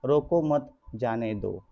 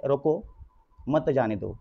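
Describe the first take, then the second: First: "रोको मत" run together, clear pause, then "जाने दो"; pause after मत. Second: "रोको", clear pause, then "मत जाने दो" as one phrase; pause after रोको. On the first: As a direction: join "मत" to "रोको" and break before "जाने दो". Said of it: "जाने दो की बात हो रही है". ("रोको मत" एक साथ, फिर विराम, फिर "जाने दो") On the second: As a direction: break after "रोको", keeping "मत" joined to "जाने दो". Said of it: "रोकने की बात हो रही है". ("रोको" के बाद विराम, फिर "मत जाने दो" एक साथ) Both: Shown as a demonstration.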